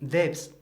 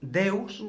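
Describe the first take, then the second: First: The middle consonant is sounded as v. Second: The middle consonant is sounded as u. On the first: "Devs, D-E-V-S" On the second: "los romanos como pronunciaban la V como una U"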